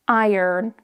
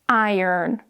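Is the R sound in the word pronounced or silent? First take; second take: pronounced; pronounced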